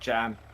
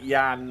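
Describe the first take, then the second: First: The name begins with a j sound. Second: The name begins with a y sound. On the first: The speaker calls it wrong. "not not Jan" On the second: The speaker calls it right. "I think I should be pronouncing it Yan"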